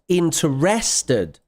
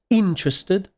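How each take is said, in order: First: The stress is on a later syllable. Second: The stress is on the first syllable. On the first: The speaker calls it wrong. "not interested. Okay, that's not English" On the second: The speaker calls it right. "It's on the first syllable"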